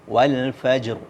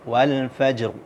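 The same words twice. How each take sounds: No difference in how they are said.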